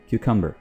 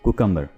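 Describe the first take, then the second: First: The word begins with a 'kyoo' sound. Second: The word begins with a 'koo' sound. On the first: The speaker calls it right. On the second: The speaker calls it wrong. "ना कि कुकम्बर"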